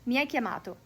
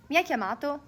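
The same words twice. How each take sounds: First: "Mi hai chiamato?" said as a flat statement, pitch falling on "hai"; "Mi hai chiamato?" with a falling statement tune; statement intonation. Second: "Mi hai chiamato?" asked as a question, pitch rising on "hai" and a little louder; "Mi hai chiamato?" with a rising question tune; question intonation. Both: Shown as a demonstration. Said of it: "the question is gonna have a different intonation".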